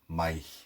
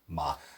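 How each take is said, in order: First: The vowel glides into an 'eye' sound. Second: The vowel is a plain open 'ah' sound. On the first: This is the northern regional form. "In Ulster, it's mai" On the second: This is the form used in other regions. "Everywhere else, it is ma"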